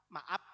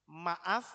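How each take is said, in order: First: "Maaf" logat Sunda berakhir P; logat Sunda, F jadi P. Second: "Maaf" dengan F jelas di ujung; akhiran F. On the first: Retold or imitated. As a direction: tiru orang Sunda, "Maaf" jadi "maap". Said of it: "kalau saudara ketemu orang Sunda". ("Maaf" ala Sunda, ditutup bunyi P) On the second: Shown as a demonstration. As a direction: ucapkan "Maaf" berakhir desis F. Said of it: "itu pakai huruf apa". ("Maaf" ditutup bunyi F)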